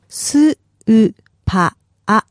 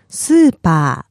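First: It is said slowly, syllable by syllable. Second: It is said fast as one word.

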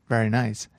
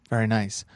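The two takes are said the same way.

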